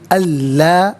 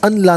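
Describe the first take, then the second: First: The n merges into a doubled l sound. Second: The n is pronounced separately before the l. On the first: The speaker calls it right. "बल्कि अल्ला" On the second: The speaker calls it wrong. "अन ला नहीं पढ़ेंगे"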